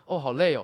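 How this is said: It sounds pointedly aimed at the listener.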